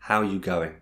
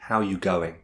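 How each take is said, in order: The two takes are said the same way.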